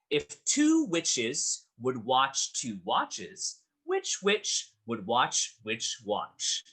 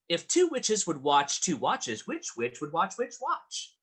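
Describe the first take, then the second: First: It is said at normal speed. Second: It is said faster than before.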